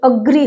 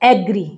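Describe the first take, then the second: First: The first vowel is a weak 'uh' sound. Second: The first vowel is a full 'eh' sound. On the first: The speaker calls it right. "अग्री होता है ये" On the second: The speaker calls it wrong. "एग्री नहीं होता"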